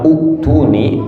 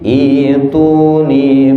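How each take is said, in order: First: The word begins with a short 'oo' sound. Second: The word begins with a long 'ee' sound. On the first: The speaker calls it wrong. "salah baca bukan uktuni" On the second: The speaker calls it right. "hamzahnya tuh jadi iya... jadi panjang. Jadi dua harokat"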